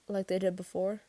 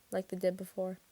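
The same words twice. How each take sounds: First: Tentative question rising on "before". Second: Subdued statement, "before" falling away; confirming. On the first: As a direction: ask "before" with a lift at the end. Question later echoed as answer. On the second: Answer echoing the question. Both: A narrator's reading.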